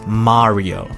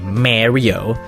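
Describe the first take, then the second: First: The a vowel is neither long nor short. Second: The a vowel is an English long or short a. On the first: The speaker calls it right. "Nuh-uh, it's Mario" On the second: The speaker calls it wrong. "like when people say Mario"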